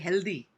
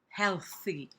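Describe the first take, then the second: First: The th is buzzing with vocal voicing. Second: The th is breathy with no voicing.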